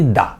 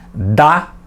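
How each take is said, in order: First: The word is said weakly, without stress. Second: The word is said strongly, with stress. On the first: "o segundo é fraco" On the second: "O primeiro dá é forte"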